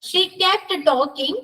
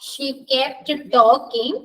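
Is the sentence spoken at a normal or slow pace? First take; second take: normal; slow. First: It is spoken at a normal pace. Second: It is spoken slowly.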